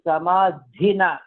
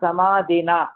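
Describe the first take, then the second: First: The 'dh' is said with a breathy puff. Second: The 'dh' is said without a breathy puff. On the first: The speaker calls it right. "dha mahaprana" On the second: The speaker calls it wrong. "it is not samadhina"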